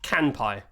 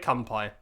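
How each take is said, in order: First: The first syllable sounds like 'kan'. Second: The first syllable sounds like 'kum'. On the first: The speaker calls it right. "They say Kanpai, not Kumpai" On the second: The speaker calls it wrong. "don't say Kumpai"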